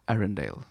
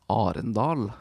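First: The name is said with an American English pronunciation. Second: The name is said with a Norwegian pronunciation. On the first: "How do they pronounce it in the American English version?" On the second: "And it's actually"

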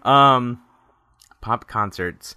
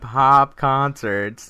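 First: The p sounds burst strongly into the microphone. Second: The p sounds are softened with little burst. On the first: The speaker calls it wrong. "I'm totally blowing out the audio on this" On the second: The speaker calls it right. "less plosives"

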